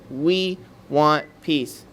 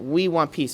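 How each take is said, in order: First: We want peace, every word slow and weighted; slow solemn statement. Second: Said in the usual way. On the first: Shown as a demonstration. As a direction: lay out "We want peace" like a pledge. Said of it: "they greet you with the statement". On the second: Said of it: "it's a statement".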